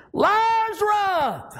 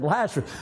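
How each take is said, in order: First: Long, high commanding shout; crying out. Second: Said in the usual way. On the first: Acted. Jesus at the tomb calls the dead man out, shouted. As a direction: shout the name out, stretched very high. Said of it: "he cried out". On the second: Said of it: "and hadn't said".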